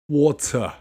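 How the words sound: It has a strong British T.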